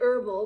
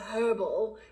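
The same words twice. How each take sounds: First: The word begins with no h sound. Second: The word begins with a clear h sound. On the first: The speaker calls it wrong. "rather than herbal" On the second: The speaker calls it right. "the British pronunciation of herbal"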